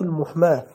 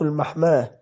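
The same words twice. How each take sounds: First: المحماة read as al-muhmah, with "u" after the mim; المحماة opening "al-muh-", not "al-mah-"; damma on the mim. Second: المحماة read as al-mahmah, with "a" after the mim; المحماة opening "al-mah-", not "al-muh-"; fatha on the mim. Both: Real, not acted. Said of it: "بضم الميم".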